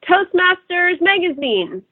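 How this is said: The voice is thin and comes from the throat. The speaker calls it wrong. "throat without a deep breath. So something like"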